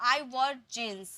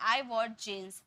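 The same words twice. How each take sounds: First: Very slow careful model sentence; slow correct model. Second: Said in the usual way. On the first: Shown as a demonstration. Teacher gives the corrected sentence without the article. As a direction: lay each word out for the class. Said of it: "तो". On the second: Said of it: "अ नहीं लगाने".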